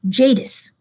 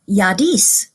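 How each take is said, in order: First: The name is said the common American way. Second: The name is said the way a Scandinavian word sounds. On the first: "here in the United States, most people pronounce that Jadis" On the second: "it looked more Scandinavian, and so they call her Yadis"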